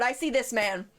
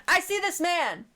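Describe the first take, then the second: First: Said in the usual way. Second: Higher, dramatic I see this man; high dramatic repeat. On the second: Shown as a demonstration.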